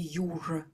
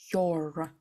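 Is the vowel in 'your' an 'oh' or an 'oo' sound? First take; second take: oo; oh. First: The vowel sounds like the oo in you. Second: The vowel sounds like an oh sound. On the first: The speaker calls it wrong. "Пожалуйста, не читайте your" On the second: The speaker calls it right. "Е. Your. О. Обязательно там звук возникает"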